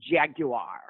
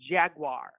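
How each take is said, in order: First: It uses the British pronunciation of the word. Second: It uses a non-British pronunciation of the word. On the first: "One of the Brits pronounce it jaguar" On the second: "But others pronounce it jaguar"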